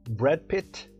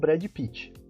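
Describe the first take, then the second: First: The words end cleanly in consonants. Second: An extra vowel follows the final consonants. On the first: The speaker calls it right. "pronúncia correta" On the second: The speaker calls it wrong. "e não"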